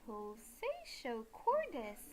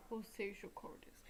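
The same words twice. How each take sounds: First: Slow, swooping stretch on each word; exaggerated, elongated game title; drawn-out title call. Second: Soft, half-whispered game title; hushed and understated; quiet title repeat. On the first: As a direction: draw PULSATIO CORDIS out playfully. Playful calling of the loading game's title. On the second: Real, not acted. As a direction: say it under your breath, unstretched. Same title muttered back quietly.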